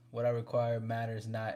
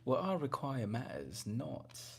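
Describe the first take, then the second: First: It is said in his ordinary natural voice. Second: It is said in a put-on, posh period-drama voice.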